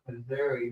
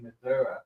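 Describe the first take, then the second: First: It uses the outsider pronunciation of the name. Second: It uses the local pronunciation of the name. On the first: The speaker calls it wrong. "it's not actually pronounced Missouri" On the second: The speaker calls it right. "The people that are over there say Missouri"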